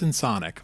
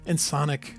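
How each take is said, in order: First: It is said plainly, rhyming with sonic. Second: It is said with a put-on French sound. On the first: "like audio sonic" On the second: "that sounds like that should be a, a French company"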